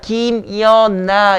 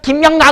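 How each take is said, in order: First: The middle syllable sounds like 'yeon' before 'na'. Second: The middle syllable sounds like 'myeong' before 'na'. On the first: This is how people actually say the name. The speaker calls it right. "이러잖아" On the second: People do not actually say the name this way. The speaker calls it wrong. "그러지 않잖아"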